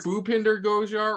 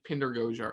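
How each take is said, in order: First: The name begins with a full first syllable. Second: The name begins without its first syllable. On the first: "It's either Bhupinder Gujar" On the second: "the first three letters silent"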